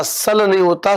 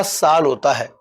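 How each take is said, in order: First: सल with a clipped short a; short vowel. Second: साल with a long aa; long vowel. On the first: Teacher mimics a student's mistake, a clipped सल. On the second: Teacher gives the correct form, a long-vowel साल. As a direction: stretch the aa in साल. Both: Shown as a demonstration.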